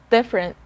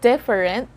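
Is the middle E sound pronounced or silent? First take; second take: silent; pronounced. First: The middle E sound is silent. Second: The middle E sound is pronounced. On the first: The speaker calls it right. "The silent letter here is the letter E" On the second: The speaker calls it wrong. "So it's not different"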